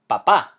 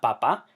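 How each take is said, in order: First: "papá" as pa-PA, loud ending; corrected "papá", weight at the end; stress on last A. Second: "papa" as PA-pa; contrasting "papa", light ending; stress on first syllable. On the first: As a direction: punch the second pa of "papá". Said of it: "emphasis on the last A". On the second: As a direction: put the weight on the first pa of "papa". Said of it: "It's not papa". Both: Shown as a demonstration.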